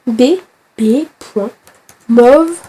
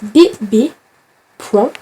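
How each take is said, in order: First: Slow spelled-out dictation. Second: Said in the usual way. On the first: Shown as a demonstration. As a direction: spell out B B point slowly, each letter apart, in a French accent. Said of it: "je parle avec l'accent français". (dicté lentement, B B point lettre par lettre, accent français) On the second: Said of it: "non, je sais pas faire des points".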